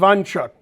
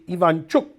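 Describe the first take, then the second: First: The name is said with an American pronunciation. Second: The name is said with its native pronunciation. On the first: The speaker calls it wrong. "we'll pronounce it the American way, which is wrong" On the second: The speaker calls it right. "if you want his name pronounced correctly"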